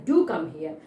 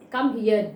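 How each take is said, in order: First: Insistent, with "do" punched; firm stress on "do"; emphatic DO. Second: Said in the usual way. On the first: Shown as a demonstration. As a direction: insist by hitting "do" first. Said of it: "it's I'm insisting". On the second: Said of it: "a common expression".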